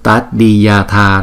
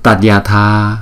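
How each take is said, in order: No difference in how they are said.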